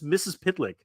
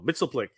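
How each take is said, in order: First: The name is said as 'Missus Pitlick'. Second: The name is said as 'Mitzelplick'. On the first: This is how others say the name. "if I was to say that fast, it's Missus Pitlick" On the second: This is how the speaker says the name. "I say no, Mitzelplick"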